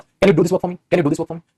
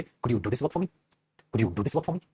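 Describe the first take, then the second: First: Plain direct question, no softening; a flat demanding ask; blunt straight ask. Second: Much softer and lower, gentle asking; soft, low, courteous request; polite request. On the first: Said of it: "सीधा, सीधा पूछ रहे हो". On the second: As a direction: ask sweetly, as a favour. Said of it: "तमीज और तहजीब के साथ पूछना होगा". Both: Shown as a demonstration.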